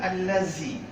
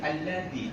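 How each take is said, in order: First: The middle consonant is a buzzing z sound. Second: The middle consonant uses the tongue tip at teeth. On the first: The speaker calls it wrong. "bukan allazi" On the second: The speaker calls it right. "tapi alladhi. Ujung lidah sama dengan tha"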